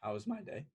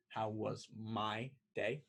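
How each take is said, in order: First: A warning echo of the question; ominous repeat. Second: Slow, ominous repeat. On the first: Person B echoing person A's question before unloading. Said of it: "never good when they repeat the question". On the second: Person B repeating the question again, winding up to vent. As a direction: lower and slow, "my day" dragged out with a rising end. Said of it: "Never good when they do it twice". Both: Acted.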